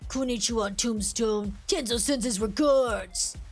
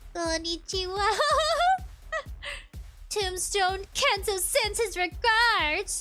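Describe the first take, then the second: First: It is said in a low, deep voice. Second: It is said in a high, girlish voice.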